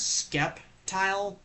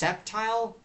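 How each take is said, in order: First: The word begins with an sk sound. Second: The word begins with a plain s sound. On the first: The speaker calls it wrong. "which I originally pronounced it as Skeptile, but then realizing it's not Skeptile" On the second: The speaker calls it right. "it's pronounced Septile"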